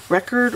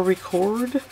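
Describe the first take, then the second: First: Record with the stress on the first syllable, REC-ord, like the noun. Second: Record with the stress on the second syllable, re-CORD, like the verb. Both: Shown as a demonstration. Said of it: "record or record".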